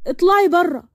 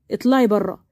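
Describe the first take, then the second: First: Higher, insistent acted outburst; angry order. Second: Low, controlled order to leave; lower-pitched, firm fatherly dismissal; stern father. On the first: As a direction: throw her out with rising force. Marwan ordering Sara out. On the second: Acted. Father stepping in, same order.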